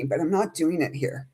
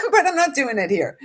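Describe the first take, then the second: First: Said in the usual way. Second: High laugh breaking into the words. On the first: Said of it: "I don't wanna cry". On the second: Real, not acted. To her viewers, holding back tears, laughing. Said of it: "And clearly we're not done".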